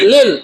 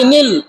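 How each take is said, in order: First: The syllable begins with an l sound. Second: The syllable begins with an n sound. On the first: The speaker calls it right. "লিল নাকি নীল?" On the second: The speaker calls it wrong. "লিল নাকি নীল?"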